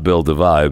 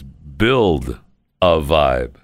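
First: It runs together like one personal name. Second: It is split into three separate words. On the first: It is the name of a person. The speaker calls it wrong. "I thought it was a guy" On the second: It is a phrase about building something. The speaker calls it right. "As in three words"

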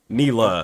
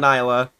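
First: The first syllable sounds like knee. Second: The first syllable sounds like nye. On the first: The speaker calls it right. "Knee, like your kneecap" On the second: The speaker calls it wrong. "Don't say"

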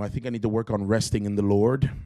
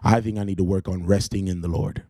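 First: It is said softly, without extra force. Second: It is said boldly, with strong force.

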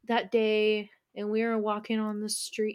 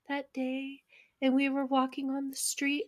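First: It is said in the speaker's normal voice. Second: It is said in an imitated, put-on voice.

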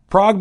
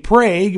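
First: The name is said the usual, original way. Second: The name is said the local Oklahoma way. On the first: "In Oklahoma, Prague became" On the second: "became Prague"

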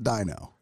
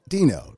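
First: The first vowel sounds like 'eye' in 'dinosaur'. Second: The first vowel sounds like 'ee' in 'see'. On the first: The speaker calls it wrong. "not Dino. I mean, I get it. Dinosaur" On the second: The speaker calls it right. "But pronounced D-E-A-N-O"

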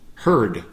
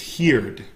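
First: The vowel sounds like the vowel in 'her'. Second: The vowel sounds like the vowel in 'hear'. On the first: The speaker calls it right. "in the past, it's pronounced heard" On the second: The speaker calls it wrong. "I hear a lot of our students pronouncing it as heard"

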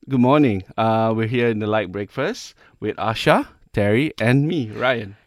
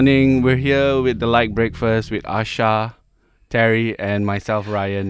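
First: The tone sounds happy and enthusiastic. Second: The tone sounds miserable and unenthusiastic.

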